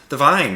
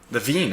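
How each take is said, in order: First: The name's vowel sounds like 'eye'. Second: The name's vowel sounds like 'ee'. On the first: The speaker calls it wrong. "I guess I've been saying that wrong the whole time" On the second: The speaker calls it right. "the Veen, I should say"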